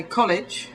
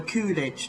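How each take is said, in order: First: "college" with short rounded o, KOL-ij; British short-o "college"; English pronunciation. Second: "coolidge" for college, with a longer vowel; imitated American pronunciation. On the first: English speaker showing how we say it, short-o "college". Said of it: "We say college". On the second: English speaker mimicking Americans, "coolidge" for college. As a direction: stretch the first vowel of "coolidge". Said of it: "Americans say it more of". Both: Shown as a demonstration.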